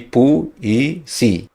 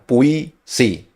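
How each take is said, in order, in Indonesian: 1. Huruf u dan i diucapkan sebagai dua suku kata terpisah. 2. Huruf u dan i menyatu menjadi satu diftong. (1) "huruf U dengan I-nya itu terpisah. Jadi puisi" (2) "kalau puisi itu berarti U I-nya sebagai diftong"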